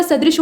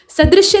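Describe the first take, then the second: First: सदृश said 'sa-drish', ending on sh; सदृश without य. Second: सदृश्य said 'sa-drish-ya'; सदृश्य with य ending. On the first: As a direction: stop सदृश at the 'sh'. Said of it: "सदृश होता है". (सदृश के अंत में केवल 'श' बोलें) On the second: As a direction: end सदृश्य on a clear 'shya'. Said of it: "सदृश्य नहीं होता". (सदृश्य के अंत में 'श्य' बोलें) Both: Shown as a demonstration.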